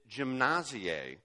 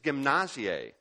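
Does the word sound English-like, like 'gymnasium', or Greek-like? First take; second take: English-like; Greek-like. First: It is said sounding close to English gymnasium. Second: It is said with Greek-sounding vowels and stress. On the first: The speaker calls it wrong. "if you pronounce it incorrectly, you get gymnasie, which sounds a lot like gymnasium" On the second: The speaker calls it right. "the Greek word for discipline is"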